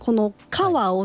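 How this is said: It is said with Kansai dialect intonation. "この川をっていうのが関西弁で"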